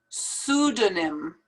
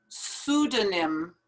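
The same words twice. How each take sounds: Both takes have the same delivery.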